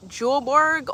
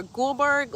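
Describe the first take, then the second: First: Julberg drawn out with a "j" sound at the start; slow, careful Julberg with soft G; soft G pronunciation. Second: Gulberg drawn out with a hard "g" at the start; slow, careful Gulberg with hard G; hard G pronunciation. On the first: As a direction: say Julberg slowly, starting as in "jump". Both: Shown as a demonstration. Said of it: "like a soft G or a hard G".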